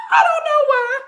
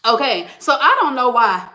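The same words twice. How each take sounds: First: Repeated while laughing, much higher. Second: Said in the usual way. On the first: Real, not acted. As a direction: laugh right through the words.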